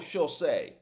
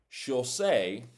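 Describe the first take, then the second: First: The phrase is said quickly and run together. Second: The phrase is said slowly and carefully.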